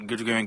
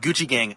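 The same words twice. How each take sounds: First: The words are slurred and mumbled together. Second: The words are said clearly and crisply. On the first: "not enunciated" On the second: "he's not like"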